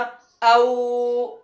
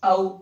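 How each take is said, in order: First: The vowel is drawn out long. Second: The vowel is short and quick. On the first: The speaker calls it wrong. "ये खिंच गया" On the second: The speaker calls it right. "जल्दी भी हो गया"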